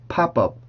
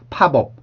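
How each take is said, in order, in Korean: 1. 연결되는 p 소리는 된소리예요. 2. 연결되는 p 소리는 된소리가 아니에요. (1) "이런 식으로 소리가 바뀌면 조금 더 부드럽게" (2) "팝업 이게 아니라"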